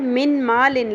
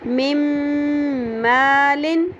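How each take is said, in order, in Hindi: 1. पहला शब्द एक साफ़ n ध्वनि से खत्म होता है। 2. अगले शब्द से पहले n, m में मिल जाता है। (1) "लिखा हुआ है" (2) "हम कैसे पढ़ेंगे?"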